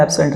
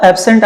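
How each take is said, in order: First: absent with the first syllable clipped short and SENT stressed; verb stress. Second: absent with the first syllable AB punched, second light; noun stress. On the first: Teacher shows exam students the verb absent, stressing SENT. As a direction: say absent as the verb, weight on the end. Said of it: "second syllabus stress करते हैं तो ये verb". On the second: Teacher shows exam students the noun absent, stressing AB. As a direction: say absent as the noun, weight on the front. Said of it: "first syllabus stress कर देते हैं तो ये noun". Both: Shown as a demonstration.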